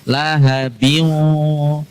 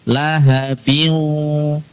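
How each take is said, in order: No difference in how they are said.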